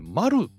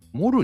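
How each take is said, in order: First: The vowel sounds like 'ah'. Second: The vowel sounds like 'oh'. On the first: The speaker calls it right. "マルだと思うんだよね" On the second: The speaker calls it wrong. "モルじゃねえって思うんだよね"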